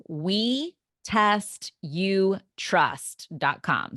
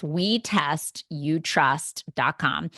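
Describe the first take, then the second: First: Slow and clear. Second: Spelled out slowly. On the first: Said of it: "spelling out the website slowly". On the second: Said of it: "repeating the website". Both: Shown as a demonstration.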